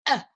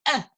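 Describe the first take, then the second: Both takes have the same delivery.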